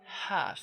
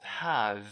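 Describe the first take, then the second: First: It ends in a voiceless consonant. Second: It ends in a voiced consonant. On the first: The speaker calls it right. "Change that to a voiceless consonant" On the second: The speaker calls it wrong. "We don't say have"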